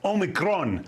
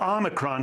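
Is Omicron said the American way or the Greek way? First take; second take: Greek; American. First: It is said the way Greeks pronounce it. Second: It is said the way Americans pronounce it. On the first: "They pronounce it Omicron" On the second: "or Omicron here in the U S"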